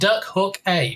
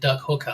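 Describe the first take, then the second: First: Hook and a are said as separate words. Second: Hook and a blend into one word, hooker. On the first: You can hook a duck. The speaker calls it right. "But Duck Hook A, because you can hook a duck" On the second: It sounds inappropriate. The speaker calls it wrong. "Not as some people pronounce it"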